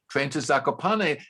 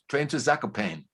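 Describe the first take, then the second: First: The final E of the name is pronounced. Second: The final E of the name is silent. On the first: The speaker calls it right. "people pronounce it correctly" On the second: The speaker calls it wrong. "without that accent, they said"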